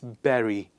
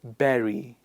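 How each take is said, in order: No difference in how they are said.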